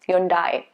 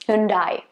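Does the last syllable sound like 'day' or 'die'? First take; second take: die; die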